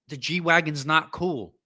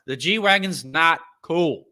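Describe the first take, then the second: First: Slow, high, each word hammered; emphatic yell. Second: Slow, high, louder declaration; emphatic. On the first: Yelling his verdict at anyone who likes G-Wagons. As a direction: spell it out so nobody can miss it. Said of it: "how loudly I need to yell this thing". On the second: Closing the rant to viewers with a loud verdict. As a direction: lay it down as final. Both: Real, not acted.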